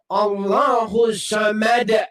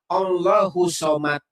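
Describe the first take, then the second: First: The final word ends with a clear d sound. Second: The final word ends without a clear d sound. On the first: The speaker calls it right. "Harus harus pakai D" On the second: The speaker calls it wrong. "Bukan Somad, salah"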